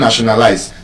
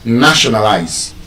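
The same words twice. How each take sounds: First: The stress is not on the first syllable. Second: The stress is on the first syllable. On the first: The speaker calls it wrong. "it's not" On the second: The speaker calls it right. "That word will be stressed on the first syllable"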